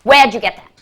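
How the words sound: It is said in a harsh, menacing tone.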